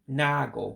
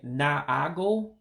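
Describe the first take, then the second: First: The vowel after n is single, one a sound. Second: The vowel after n is doubled, two a sounds. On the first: "because I've eliminated one of the a's" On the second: "instead of saying naago"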